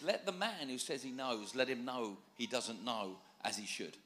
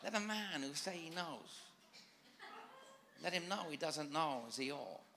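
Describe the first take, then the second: First: It is said in his own natural accent. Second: It is said in a put-on Asian accent.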